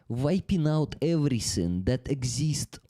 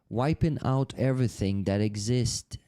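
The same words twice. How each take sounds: First: It is said in an exaggerated Russian accent. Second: It is said in the speaker's ordinary accent. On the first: The speaker calls it right. "Let me use the Russian accent. Ugly Russian accent" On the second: The speaker calls it wrong. "No, no, no"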